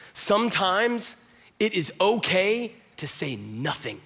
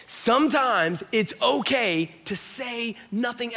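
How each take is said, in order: First: "Sometimes it is okay to say nothing" slowly, in separate phrases; deliberate emphasis. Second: "Sometimes it's okay to say nothing" high and stretched; insistent emphasis. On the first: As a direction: pause before "to say nothing". Emphatic repeated advice, first take. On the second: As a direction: drive home "Sometimes it's okay", pitched up and slow. Emphatic repeated advice, second take. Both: Real, not acted.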